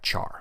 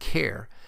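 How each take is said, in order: First: It does not sound like the start of character. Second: It sounds like the start of character. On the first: "but I've always pronounced it as the type char" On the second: "You may hear people pronounce it as type char, since it is short for character"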